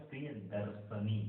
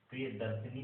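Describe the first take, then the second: First: प्रियदर्शनी said slowly, short i on श; slowly, श with a short vowel, no ई; correct pronunciation. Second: प्रियदर्शिनी with a long ई after श; the wrong version, long शि sound; wrong form. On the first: Teacher contrasting the right spelling, said slowly and carefully. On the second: Teacher saying the wrong form to contrast. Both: Shown as a demonstration. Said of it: "प्रियदर्शिनी नहीं".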